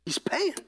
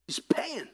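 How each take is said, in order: First: Said in the usual way. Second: Whispered. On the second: Acted. Repeated line, first take whispered.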